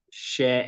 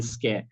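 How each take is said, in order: First: "share" as a bare SHE sound; British first syllable. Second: "scare" as a bare SKE sound; American first syllable. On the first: Showing the first sound of schedule, British pronunciation. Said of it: "in British or in neutral". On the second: Showing the first sound of schedule, American pronunciation. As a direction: isolate the hard sk opening in "scare". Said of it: "They tend to speak in American accent". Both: Shown as a demonstration.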